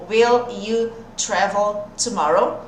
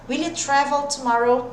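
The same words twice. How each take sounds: First: Slow, separate words, "Will" and "you" kept apart; slow classroom demo with unlinked words. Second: "Will you" glued as "wil-iu" at natural pace; smooth linked English question; linked sounds. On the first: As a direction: spell out each word slowly before linking. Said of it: "O will com you, eu também vou grudar". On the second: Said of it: "Grudei o som e é assim que vai ficar". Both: Shown as a demonstration.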